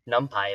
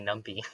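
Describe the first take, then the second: First: "numpy" with a final "pie" sound. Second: "numpy" with a final "pee" sound. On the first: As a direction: end "numpy" like the word "pie". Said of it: "don't wanna be saying". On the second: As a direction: end "numpy" like the word "pea". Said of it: "if it's actually numpy". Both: Shown as a demonstration.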